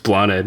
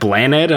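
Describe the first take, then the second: First: It is said with the speaker's own vowel sounds. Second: It is said the way people commonly guess it. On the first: This is how the name is meant to sound. The speaker calls it right. "because it's Bloned" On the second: Other people guess the name this way. The speaker calls it wrong. "people say like, is it Blaned? I'm like, that's close enough"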